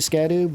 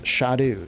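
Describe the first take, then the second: First: The word begins with an 'sk' sound. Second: The word begins with an 'sh' sound. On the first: The speaker calls it wrong. "I say Scadu" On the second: The speaker calls it right. "they are actually pronounced Shadu"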